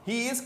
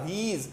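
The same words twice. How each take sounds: First: Said in the usual way. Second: He is joined into one syllable, 'heez'; merged contraction. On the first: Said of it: "आपस में मिला देते हैं". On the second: Shown as a demonstration. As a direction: run He is together as heez. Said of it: "मिला के". (He is को मिलाकर 'हीज़' बोलें)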